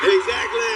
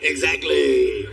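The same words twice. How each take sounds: First: Louder, punched exactly; loud triumphant exactly. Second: Drawn out and satisfied; slow smug exactly. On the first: Wife pleased husband volunteered, loud triumphant exactly. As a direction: snap it out in triumph. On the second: Wife getting husband to clean, smug drawn-out exactly. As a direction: savor the word exactly slowly. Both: Retold or imitated.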